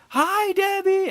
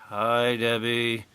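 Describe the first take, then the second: First: High, slow, loud sing-song crowd greeting; crowd in chorus. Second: Slow, deadpan sarcastic greeting. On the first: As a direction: drawl it like a whole crowd answering on cue. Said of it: "the whole crowd's like". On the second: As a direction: say it flat, mocking the crowd. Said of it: "You can hear the sarcasm". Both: Retold or imitated.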